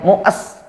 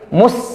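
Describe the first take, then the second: First: The vowel is drawn out before the s. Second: The vowel goes straight into the s. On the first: The speaker calls it wrong. "Tidak boleh panjang ya" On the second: The speaker calls it right. "bibirnya langsung es, itu langsung balik"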